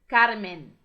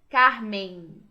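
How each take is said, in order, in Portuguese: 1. O final é um som de n claro. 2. O final se apaga numa vogal nasal. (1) "Em espanhol isso não acontece. ... falamos Carmen. ... a língua termina no céu da" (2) "quando algumas palavras em português terminam com M ou N, a gente tende a falar assim"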